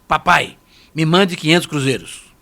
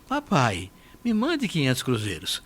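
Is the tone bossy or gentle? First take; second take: bossy; gentle. First: It sounds bossy and demanding. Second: It sounds gentle and pleading.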